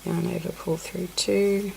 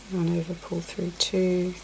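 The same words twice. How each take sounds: The two takes are said the same way.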